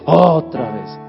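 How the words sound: It sounds reproachful and disappointed.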